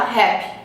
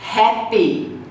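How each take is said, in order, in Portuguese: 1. O som da vogal final é omitido. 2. O som da vogal final é claramente pronunciado. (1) "Como que o brasileiro fala?" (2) "Você diz happy"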